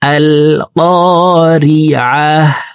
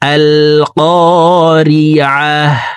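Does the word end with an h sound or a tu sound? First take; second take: h sound; h sound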